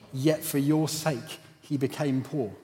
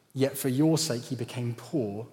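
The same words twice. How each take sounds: No difference in how they are said.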